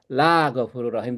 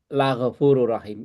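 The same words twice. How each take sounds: First: The vowel in la is long. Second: The vowel in la is short. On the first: It says that God is not forgiving. The speaker calls it wrong. "itu artinya apa? Allah tidak ghafur. Bahaya" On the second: It affirms that God is forgiving. The speaker calls it right. "la-nya harus pendek"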